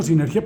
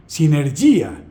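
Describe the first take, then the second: First: Said in the usual way. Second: "sinergia" stressed on the final I, si-ner-GÍ-a; Greek stress on I. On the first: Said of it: "El término sinergia proviene". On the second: Shown as a demonstration. Lecturer giving the ancient Greek origin, "sinergia" stressed si-ner-GÍ-a. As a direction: put the accent of "sinergia" on the second-last vowel, GÍ-a. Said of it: "El acento está en la, en la I".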